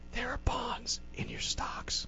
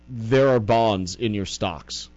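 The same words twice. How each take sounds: First: It is said in a whisper. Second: It is said in a normal voice.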